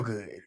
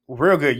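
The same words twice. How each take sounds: First: Said in the usual way. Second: "Real good" repeated with more weight and a falling finish; stress on REAL GOOD. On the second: Shown as a demonstration. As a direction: lean into "Real good" to drive it home.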